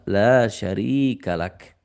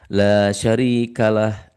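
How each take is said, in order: First: The phrase ends with a k sound. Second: The phrase ends with an h sound. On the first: The speaker calls it right. "Yang betul adalah" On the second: The speaker calls it wrong. "Bukan kap tapi ha. ... Nah itu tidak betul"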